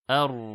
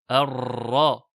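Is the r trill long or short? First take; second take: short; long. First: The r has a light, short trill. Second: The r has a long, exaggerated trill. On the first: The speaker calls it right. "on entend bien donc la srifa avec le Ra sakin" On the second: The speaker calls it wrong. "Attention à ne pas exagérer encore une fois dans At-Takrir. Ne pas faire"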